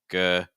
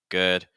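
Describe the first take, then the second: Both takes have the same delivery.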